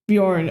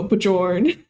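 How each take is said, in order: First: The J is pronounced like a Y. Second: The J is pronounced like an English J. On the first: The speaker calls it right. "like the J is a Y" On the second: The speaker calls it wrong. "my dumbass would definitely go"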